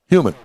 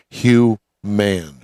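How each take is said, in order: First: The name is said quickly as one word. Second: The name is said slowly as two words.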